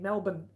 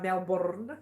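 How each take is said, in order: First: The first syllable has no R sound. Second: The R in the first syllable is rolled. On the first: It is the usual local way. "we usually say B I N" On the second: It is said as a joke. "I do say it for a joke when I say Melbourne. I know I roll the R"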